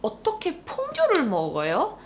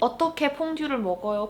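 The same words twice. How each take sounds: First: The word 퐁듀를 is strongly emphasized, sounding indignant. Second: The question is neutral, without special emphasis on 퐁듀를.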